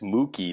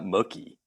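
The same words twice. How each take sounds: First: The first syllable sounds like a cow's moo. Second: The first syllable does not sound like moo. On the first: The speaker calls it right. "It's Mookie, ... Moo. ... like a cow" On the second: The speaker calls it wrong. "not Mookie"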